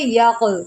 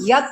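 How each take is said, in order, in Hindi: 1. अंतिम भारी क़ एक गूंजती हुई कलकला के साथ समाप्त होता है। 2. अंतिम व्यंजन सादा रूप में समाप्त होता है, बिना कलकला के। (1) "इस जज़्म की वजह से इसके ऊपर हम कलकला करेंगे" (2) "इसको हम यक नहीं"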